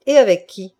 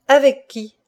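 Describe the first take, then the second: First: Louder, blunt question; pointed question. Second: Higher, louder repeated question; insistent demand. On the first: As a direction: demand an answer from her. Stunned husband starts questioning wife. (question appuyée) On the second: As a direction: press hard for the name. Husband repeats his unanswered question. (question insistante, plus aiguë) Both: A narrator's reading.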